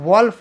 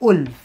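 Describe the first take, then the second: First: The vowel sounds like 'aw'. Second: The vowel sounds like 'oo'. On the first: The speaker calls it wrong. "आम्ही वॉल्फ वाचतो" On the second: The speaker calls it right. "लांडग्याचा उच्चार आहे उल्फ"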